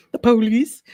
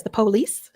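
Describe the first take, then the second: First: "the police" punched louder, "police" rising, stress on PO; pointed emphasis. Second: "the police" with a rising, drawn-out "police", hard PO; pointed emphasis. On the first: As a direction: hit "police" hard and let it rise. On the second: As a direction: lean on "police", let it rise. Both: Shown as a demonstration. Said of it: "and I say it that way".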